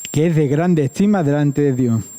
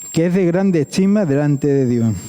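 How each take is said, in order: Both takes have the same delivery.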